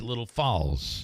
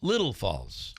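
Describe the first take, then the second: First: The stress is on the word Falls. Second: The stress is on the word Little. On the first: This is how locals say it. "if you're from Little Falls, you say it's Little Falls" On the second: This is how newcomers to the area say it. "You want to put the emphasis on Little"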